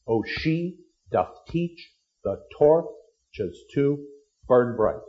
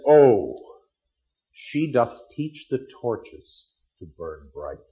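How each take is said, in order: First: "Oh, she doth teach the torches to burn bright" in slow, even short-long beats; iambic recitation. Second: Romeo's enraptured line. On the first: Shown as a demonstration. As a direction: tap out each foot slowly, "teach" strongest. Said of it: "Five feet in the line, the basic pulse". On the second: Acted. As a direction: read it like a smitten young man, slowly. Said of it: "He sees her and says".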